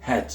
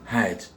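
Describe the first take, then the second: First: "hat" with a short, simple vowel; "hat" without the drawn-out ae; common way of saying hat. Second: "hat" with a drawn-out ae vowel; English model word "hat". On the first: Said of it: "Souvent on dit hat". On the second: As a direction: run a into e inside "hat". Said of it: "Le A ici se prononce". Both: Shown as a demonstration.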